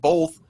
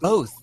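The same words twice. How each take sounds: First: The word is said with an L sound. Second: The word is said without an L sound. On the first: The speaker calls it wrong. "When did they start putting an L in both?" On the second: The speaker calls it right. "There's not an L in"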